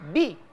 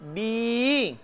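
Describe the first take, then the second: First: The vowel is short. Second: The vowel is long. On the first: "bi tidak boleh dibaca panjang kan?" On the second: "Dia dibaca panjang kapan? Bersamaan dengan huruf ya"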